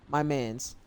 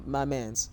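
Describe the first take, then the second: No difference in how they are said.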